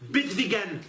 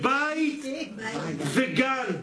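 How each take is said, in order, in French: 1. Le premier mot a un 'e' bref et simple. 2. Le premier mot a une voyelle diphtongue 'ay'. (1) "Mais où vous avez vu que ça s'appelle bet vegan?" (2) "C'est bite vegan"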